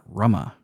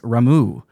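First: The name ends with an 'ah' vowel. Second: The name ends with an 'oo' vowel. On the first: The speaker calls it wrong. "not Rama" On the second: The speaker calls it right. "It is Ramu"

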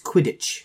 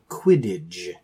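First: The word ends with a voiceless 'tch' sound. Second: The word ends with a voiced 'dge' sound. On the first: The speaker calls it right. "It's Quidditch" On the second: The speaker calls it wrong. "you guys are both saying Quidditch. Like D-G-E"

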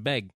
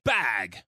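First: The vowel is a short 'e' sound. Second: The 'a' vowel is drawn out and harsh. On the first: The speaker calls it right. "no, it's a beg" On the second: The speaker calls it wrong. "draws out A short vowel so hard"

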